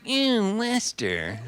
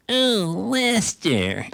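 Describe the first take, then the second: First: Put-on high, drawn-out drunken lilt; sloppy high-pitched Capote drawl; Truman Capote impression. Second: Put-on high, drawn-out drunken lilt; sing-song Southern drawl up high; Truman Capote impression. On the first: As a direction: croon the name up high, then let it sag. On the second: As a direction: croon the name up high like a tipsy Capote. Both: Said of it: "'cause he talked like that".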